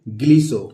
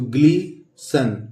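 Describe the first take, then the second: First: The word ends without an n sound. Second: The word ends with an n sound. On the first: The speaker calls it right. "यहाँ पे एन silent है" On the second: The speaker calls it wrong. "लेकिन इसको ग्लीसन नहीं पढ़ते"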